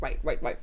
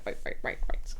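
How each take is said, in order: First: Said in the usual way. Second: "right, right, right" whispered under the breath; whispering. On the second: Real, not acted. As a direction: whisper each "right" to yourself.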